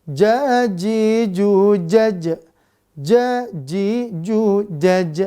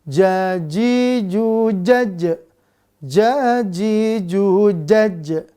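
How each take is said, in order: No difference in how they are said.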